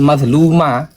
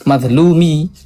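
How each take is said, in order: First: The word ends with an a vowel. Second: The word ends with an i vowel. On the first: The speaker calls it wrong. "jadi dia bukan madluma" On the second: The speaker calls it right. "yang belakang dibaca kasroh"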